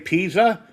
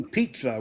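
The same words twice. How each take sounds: First: The middle consonant is a plain z sound. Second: The middle consonant is a ts sound. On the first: "like it reads" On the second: "with a T"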